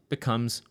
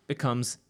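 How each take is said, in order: No difference in how they are said.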